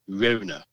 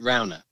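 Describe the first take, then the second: First: The name is said a posher-sounding way. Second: The name is said the plain local way. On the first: It tries to make the place sound grander. The speaker calls it wrong. "some people do call it Rona to try and give it some sort of" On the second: This is how locals say the name. The speaker calls it right. "we call it Rowner"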